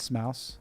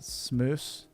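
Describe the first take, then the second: First: The vowel sounds like 'ow' in mouse. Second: The vowel sounds like 'oo' in moose. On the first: The speaker calls it right. "I corrected him" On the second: The speaker calls it wrong. "he mispronounced my guy's name. He called me"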